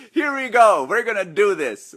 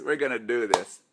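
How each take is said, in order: First: Excited rally. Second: Said in the usual way. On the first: Real, not acted. Hyping live audience to start.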